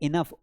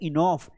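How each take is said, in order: First: The second vowel is a short uh sound. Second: The second vowel is an aw sound. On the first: The speaker calls it right. "इनफ है" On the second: The speaker calls it wrong. "इनॉफ नहीं है"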